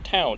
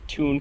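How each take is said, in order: First: The vowel sounds like 'ow' in 'cow'. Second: The vowel sounds like 'oo' in 'moon'. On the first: The speaker calls it right. "no, Town" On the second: The speaker calls it wrong. "I had some India pronounce that Toon Car"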